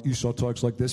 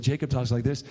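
First: Lightly voiced low Esau; a slightly lowered brotherly impression; Esau's voice. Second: Lightly voiced younger brother; a hint of a contrasting brother's voice; Jacob's voice. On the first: Preacher demonstrating how Esau talks, lightly lowered voice. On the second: Preacher demonstrating how Jacob talks, lightly put-on voice. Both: Shown as a demonstration. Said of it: "he, like, changed his voice a little bit".

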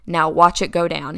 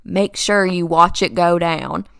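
First: Lightly imitated Kentucky accent; dad's Southern Kentucky lilt, understated. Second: Slow imitation of dad's Kentucky drawl; slow, stretched Southern Kentucky accent. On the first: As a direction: say it like a Kentucky dad. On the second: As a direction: draw it out like a Southern dad. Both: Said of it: "with his little Southern Kentucky accent".

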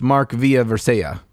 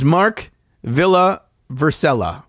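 First: "Villa Vercella" with Y sounds for double L; guessed foreign pronunciation. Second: "Villa Vercella" with plain English L sounds; spelled-out pronunciation. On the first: Host guessing the name's pronunciation, "Villa Vercella" with Y for L. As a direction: say "Villa Vercella" like "VEE-ya ver-SAY-ya". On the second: Host first reading the listener's name, spelled-out L's in "Villa Vercella". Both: Shown as a demonstration. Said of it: "which is probably pronounced".

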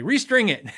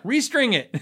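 First: Curt, higher and louder; mock blunt guitar tech; deadpan answer. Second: Higher, louder blunt reply; same curt reply louder; deadpan answer. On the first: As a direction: snap it off like a fed-up tech. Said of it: "I just wanna say". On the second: Retold or imitated. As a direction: throw it back flatly. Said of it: "They're like".

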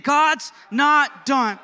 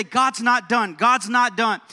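First: Loud, high, each word drawn out slowly; say it like you mean it. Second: Raised voice, leading the congregation's repeat; call-and-response lead. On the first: Preacher rallying a church to mean it, emphatic shout. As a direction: belt it out slowly with full conviction. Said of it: "Say it like you mean it". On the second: Preacher asks church to say it with him, raised lead. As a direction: give them the phrase to echo, lifted. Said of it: "I want you to say this with me". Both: Shown as a demonstration.

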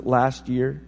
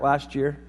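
First: "last year" set apart with deliberate weight; stress on "last year". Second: Said in the usual way. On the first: Shown as a demonstration. Dad clarifying when kids got gifts, "last year" pointedly emphasized. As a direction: land firmly on both words of "last year". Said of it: "I emphasize the words "last year". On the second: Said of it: "I emphasize the words".

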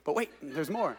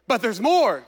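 First: Softly imitating an infomercial pitch; quietly mock the ad line; infomercial quote. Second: A hint of an infomercial pitch. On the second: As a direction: sell it like a TV ad. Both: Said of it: "That sounded like an infomercial".

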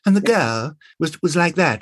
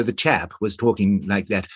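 First: Put-on higher-pitched, sweet period girl; sweet 1920s girl. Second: Lightly voiced 1920s English chap. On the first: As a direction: play the lovely young English girl. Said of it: "rather sort of sweet and lovely". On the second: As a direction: put on a touch of period chap. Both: Shown as a demonstration.

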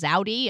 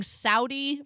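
First: "Zaudi" with a Z sound at the start; mispronounced Saudi. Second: Said in the usual way. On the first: Retold or imitated. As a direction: imitate the narrator's buzzing Z in "Zaudi". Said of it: "Kept, uh, kept pronouncing". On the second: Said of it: "kept pronouncing Saudi from".

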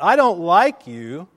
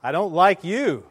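First: Loud, slow shout; boy yelling it into the valley; calling out. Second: Higher, raised voice, slightly less forceful; imitated echo reply. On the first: Retold or imitated. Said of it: "he called out". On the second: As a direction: answer back as the echo. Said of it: "the voice came back".

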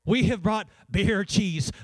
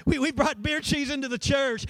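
First: Slow, mock-scandalized gasp of the words; horrified church lady. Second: Higher, mock-appalled repeat of the quote; horrified church lady. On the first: Pastor mimics the old church lady, slow and mock-horrified. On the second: Pastor repeats the church lady, higher and mock-appalled. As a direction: pitch it up in scandalized disbelief. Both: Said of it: "This lady looked horrified".

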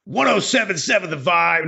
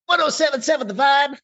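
First: First try at a radio DJ, pitched up; mild top-forty station ID voice. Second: Shouted station ID, pitched way up; over-the-top high radio DJ shout; top forty DJ. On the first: Host tries a back-sell for his co-host, mild DJ voice. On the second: Host retries the back-sell, hammed-up high DJ shout. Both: Shown as a demonstration. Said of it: "back selling that on a top forty radio station".

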